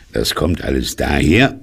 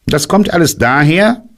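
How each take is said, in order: First: Said in the usual way. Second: Hoch, lauter und bestimmt, „kommt“ betont; streng. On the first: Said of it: "sagte Puh verärgert". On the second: Acted. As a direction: streng wie ein Lehrer zurechtweisend. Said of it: "sagte Kaninchen streng". (Kaninchen weist Puh streng zurecht)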